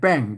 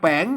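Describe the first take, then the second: First: The syllable is said with the tho tone. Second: The syllable is said with the jattawa tone. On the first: "ใส่ไม่โทรแป้ง ... เสียงโทรปกติ" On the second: "ใส่ไม่จัดว่าแป้ง"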